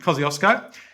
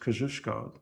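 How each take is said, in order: First: The name is pronounced with English sounds. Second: The name is pronounced with Polish sounds.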